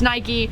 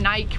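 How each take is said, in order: First: It is said the American way. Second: It is said the British way. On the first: The speaker calls it right. "It's an American brand. It's Nike" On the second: The speaker calls it wrong. "I know you guys say"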